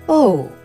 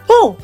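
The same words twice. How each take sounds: First: It sounds disappointed. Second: It sounds surprised.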